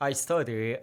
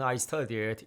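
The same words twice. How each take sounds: First: The past-tense ending is pronounced weakly. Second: The past-tense ending is pronounced clearly. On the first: The speaker calls it wrong. "너무 약하게 발음하진 않았나?" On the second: The speaker calls it right. "두 번째만 할 때는 확실하게 발음해야 합니다"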